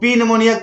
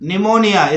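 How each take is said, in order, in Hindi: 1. यह शब्द p ध्वनि से शुरू होता है। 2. यह शब्द n ध्वनि से शुरू होता है। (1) "इसको पी निमोनिया कभी भी बोलने की कोशिश मत करना" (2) "फिर है निमोनिया"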